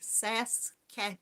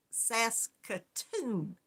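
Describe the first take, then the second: First: Saskatoon said a bit slowly, the ending rushed; sounding out Saskatoon carefully and unsure; first try at the name. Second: Saskatoon stretched out slowly, every syllable sas-ka-toon spelled out; slow, deliberate, syllable by syllable; careful slow try. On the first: Host reading a viewer's city off the chat, tentative first try. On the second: Host working out how to say a viewer's city, slow and careful. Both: Shown as a demonstration. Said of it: "I wanna put an extra syllable in there".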